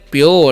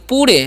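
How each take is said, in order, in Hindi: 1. स्वर से पहले एक 'y' ग्लाइड आता है। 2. यह सादे 'poo' ध्वनि से शुरू होता है, कोई ग्लाइड नहीं। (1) "इसमें पढ़ते हैं प्योर" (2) "तो पूरे नहीं"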